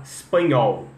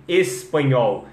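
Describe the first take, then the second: First: "espanhol" cut to "spanhol"; espanhol without E. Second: Slow "espanhol" with the E sounded; full opening E. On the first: Teacher drilling "espanhol" with the E removed. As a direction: begin "espanhol" on a bare S. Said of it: "treinar, tirar o E". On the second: Teacher giving the starting word, "espanhol" with E. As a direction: begin "espanhol" on a clear E. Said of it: "que no inglês sai o E". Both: Shown as a demonstration.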